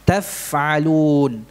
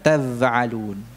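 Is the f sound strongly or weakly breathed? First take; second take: strongly; weakly. First: The f has a strong, clear breath flow. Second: The f has a weak breath, almost like v. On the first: The speaker calls it right. "aliran nafasnya kuat" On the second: The speaker calls it wrong. "bukan taf'alun"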